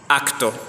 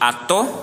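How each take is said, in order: First: A c sound comes before the t. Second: The middle consonant is a long doubled t. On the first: This is the older, original form. "au lieu de acto" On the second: This is the later, evolved form. "C'est une T géminée"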